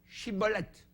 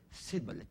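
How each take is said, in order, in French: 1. Le mot commence par un son ch. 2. Le mot commence par un son s. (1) "dites chibolette" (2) "Ils n'arrivaient pas à dire chibolette. Ils disaient cibolette"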